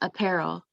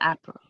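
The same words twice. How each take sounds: First: The stress is on the second syllable. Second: The stress is on the first syllable. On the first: The speaker calls it right. "the accent is on the second" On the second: The speaker calls it wrong. "Instead of app"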